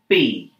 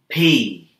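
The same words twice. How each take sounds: First: The P is said with no puff of air. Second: The P is said with a puff of air. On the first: The speaker calls it wrong. "No air" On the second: The speaker calls it right. "Breath of air"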